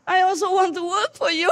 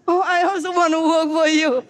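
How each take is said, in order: First: High, sad near-tearful plea; mock a sad billionaire on the verge of tears; sad, almost crying. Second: Put-on like a baby. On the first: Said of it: "looked suddenly so sad and, like, almost crying". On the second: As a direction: plead like a baby without its milk. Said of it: "he's saying like a baby, you know, without milk".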